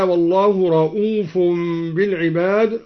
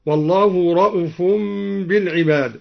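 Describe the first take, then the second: First: Said in the usual way. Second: رؤوف with the hamza vowel kept short, no long u. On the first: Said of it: "قوله تعالى". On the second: Shown as a demonstration. Reciter demonstrates Duri's shortened hamza on رؤوف. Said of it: "قصر الدوري الهمزة".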